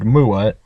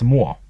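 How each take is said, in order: First: The word is said with two syllables. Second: The word is said with one syllable.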